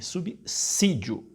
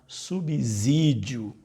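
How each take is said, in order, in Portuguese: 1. A consoante depois de 'sub' é um S sibilante. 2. A consoante depois de 'sub' é um Z sonoro. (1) "Como se você estivesse pronunciando com dois S's" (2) "não subsídio"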